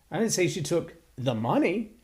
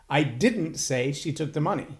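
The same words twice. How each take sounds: First: The emphasis is on the word 'money'. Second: The emphasis is on the word 'say'.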